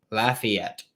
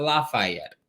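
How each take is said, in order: First: Lafayette said "LAFF-ee-ETT"; correct local pronunciation. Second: Lafayette said "LAH-fye-ETT"; wrong pronunciation. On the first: Host showing the local way to say the town, Lafayette as "laff-ee-ETT". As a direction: say Lafayette with "ee" in the middle. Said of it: "that's how it's pronounced". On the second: Host showing how not to say the town, Lafayette as "lah-fye-ETT". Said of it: "which is how it's pronounced". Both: Shown as a demonstration.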